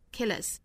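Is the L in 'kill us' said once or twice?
once. Only a single light L links the words. "英音里面的发法一般是会发成 kill us kill us 也就是只发一个 light L"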